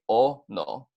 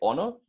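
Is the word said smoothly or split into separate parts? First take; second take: split; smoothly. First: The word is broken into separate syllables. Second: The word is said smoothly in one piece. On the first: "So it's going to be o no" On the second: "Put it together, you're going to get ono"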